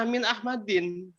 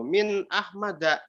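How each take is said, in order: First: "Min Ahmadin" slowly, ending in -din; jar reading with kasrah. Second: "min Ahmada" slowly, ending in short A; jar reading with fathah. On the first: Student questions what is wrong with this form, slow higher reading of Min Ahmadin. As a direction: close "Ahmadin" on I plus N. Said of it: "itu kecelaknya apa?". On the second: Student quotes the taught jar form, slow reading of min Ahmada ending in A. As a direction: end "Ahmada" on an open -da. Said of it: "ketika posisi jar tuh". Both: Shown as a demonstration.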